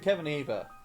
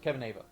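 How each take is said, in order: First: The surname starts with a hard E sound. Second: The surname starts with a soft E sound. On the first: The speaker calls it wrong. "I always keep pronouncing that wrong" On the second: The speaker calls it right. "It's a hard E rather than a soft E"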